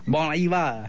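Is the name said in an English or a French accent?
French. The name is said in an exaggerated French accent. "Say with an outrageous French accent"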